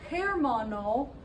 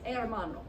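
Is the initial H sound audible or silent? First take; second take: audible; silent. First: It begins with an audible H sound. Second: It begins with no H sound at all. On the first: The speaker calls it wrong. "it's not uh, hermano" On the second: The speaker calls it right. "it's hermano. So it's kind of like the H isn't even there"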